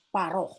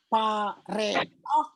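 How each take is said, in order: First: No vowel is sounded after the r. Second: An extra vowel is sounded after the r. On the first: The speaker calls it right. "tapi dibaca paroh" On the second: The speaker calls it wrong. "bukan lagi dibaca pareoh"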